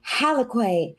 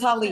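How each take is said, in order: First: The name ends with a drawn-out 'kay' sound. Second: The name ends with a short plain 'k' sound. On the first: The speaker calls it wrong. "I knew it was wrong as soon as it left my mouth" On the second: The speaker calls it right. "It was Halik"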